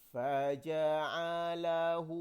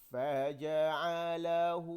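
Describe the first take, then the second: The two takes are said the same way.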